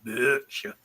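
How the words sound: It is said with an American pronunciation. The speaker calls it wrong. "That's the American pronunciation"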